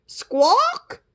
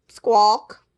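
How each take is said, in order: First: "Squawk!" high and rising like a question; asking squawk. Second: Disappointed squawk. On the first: Princess asks the bird to fly her down, a high rising "Squawk!". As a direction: squawk a hopeful plea. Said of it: "That meant, "Could you fly me down?". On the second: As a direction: squawk in letdown. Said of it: "That meant, this was supposed to be a vacation". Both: Acted.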